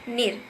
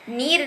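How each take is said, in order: First: The vowel is kept short. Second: The vowel is held long. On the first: The speaker calls it right. "बल्कि निर" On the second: The speaker calls it wrong. "नीर नहीं"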